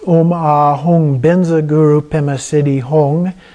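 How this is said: It uses the Tibetan pronunciation of the words. "It is pronounced ... by Tibetans"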